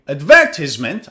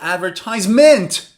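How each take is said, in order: First: The stress is on the second syllable. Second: The stress is on the fourth syllable. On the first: "on the second syllable" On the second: "Or perhaps on the fourth syllable"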